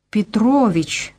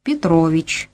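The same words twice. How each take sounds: First: Slow, strained "Петрович", each syllable forced out; with effort. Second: Said in the usual way. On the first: A narrator's reading. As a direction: repeat "Петрович" slowly, as if it costs her. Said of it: "с усилием повторила она". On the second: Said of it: "продолжал я".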